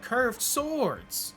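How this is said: It is shouted with shocked surprise. The speaker is amazed by the curved swords. "He doesn't like shout it or anything like"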